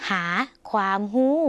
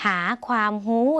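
No difference in how they are said.

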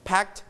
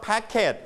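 First: "packed" as one syllable, PAKT; softened final t. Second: "packet" as two syllables, PACK-ket; wrong extra syllable. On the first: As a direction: end "packed" on a light t. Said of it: "and volume down". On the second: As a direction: say "packet" with a full -et ending. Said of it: "we don't pronounce packet". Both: Shown as a demonstration.

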